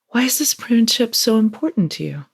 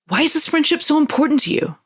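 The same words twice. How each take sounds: First: The question sounds calm and genuinely curious. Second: The question sounds upset and pressuring.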